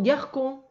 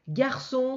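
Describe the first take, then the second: First: The middle consonant is not an s sound. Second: The middle consonant is an s sound. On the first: The speaker calls it wrong. "si tu mets pas de cédille ici, tu vas entendre garcon, et donc ça ne va pas" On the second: The speaker calls it right. "le S de leçon"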